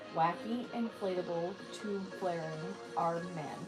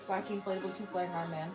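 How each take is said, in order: First: The phrase is said slowly. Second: The phrase is said quickly.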